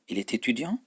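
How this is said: It is said with emphasis, like a question. Is he a student? "Hepsinde vurgu var"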